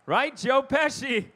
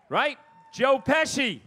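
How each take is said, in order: Both takes have the same delivery.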